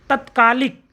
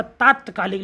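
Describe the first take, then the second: First: तत्कालिक begun with short "tat"; wrong short first vowel. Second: तात्कालिक begun with a long "taat"; correct long first vowel. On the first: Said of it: "तात्कालिक लिखा जाता". (तत्कालिक में छोटा त) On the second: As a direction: stretch the first syllable of तात्कालिक. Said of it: "लिखा जाता है". (तात्कालिक में लंबा ता) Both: Shown as a demonstration.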